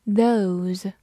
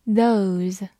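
No difference in how they are said.

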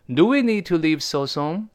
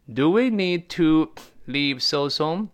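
First: Said in the usual way. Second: Higher, slow question with spaced words; unhurried repeat, pitched up as a question; slow model reading. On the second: Shown as a demonstration. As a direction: draw out each word for learners. Teacher repeats example slowly.

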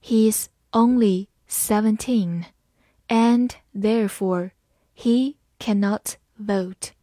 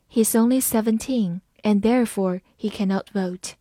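First: Slow, careful classroom read; slow teacher demo. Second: Said in the usual way. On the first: Shown as a demonstration. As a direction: read it slowly phrase by phrase. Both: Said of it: "我们把第一句慢慢来读".

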